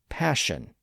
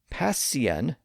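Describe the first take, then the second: First: The middle consonant is an SH sound. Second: The middle consonant is a plain S sound. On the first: This is the newer pronunciation. "the S H sound" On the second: This is the older pronunciation. "previously had a simple S sound"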